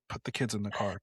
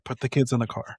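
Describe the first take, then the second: First: Hushed alarm. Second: Mock-alarmed, insistent parent; urgent order. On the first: Acted. Wary parent spotting an American, hushed alarm. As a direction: say it under your voice, mock-alarmed. Acted locals fleeing from Americans. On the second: Wary parent repeating the order, urgent mock alarm. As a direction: press the order home, firmer and fuller.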